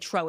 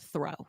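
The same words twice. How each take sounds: First: It is said with a Caribbean pronunciation. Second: It is said with a standard pronunciation. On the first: The grandmother said it this way. The speaker calls it wrong. "she'd say" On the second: The grandchild corrected it this way. The speaker calls it right. "grandma, it's throw"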